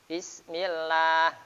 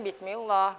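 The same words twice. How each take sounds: First: The L in 'llah' is thin and light. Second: The L in 'llah' is thick and heavy. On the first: The speaker calls it right. "maka lam jalalah dibaca tarqiq" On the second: The speaker calls it wrong. "Tidak boleh bismillah gitu"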